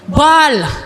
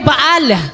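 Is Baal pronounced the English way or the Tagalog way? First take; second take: English; Tagalog. First: It is pronounced the English way, like ball. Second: It is pronounced with Tagalog sounds, two vowels. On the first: "Pag binanggit mo sa English... ay magtutunog ball" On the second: "sa Tagalog ay Baal"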